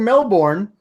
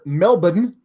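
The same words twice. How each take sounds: First: It is said with an American pronunciation. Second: It is said with an Australian pronunciation.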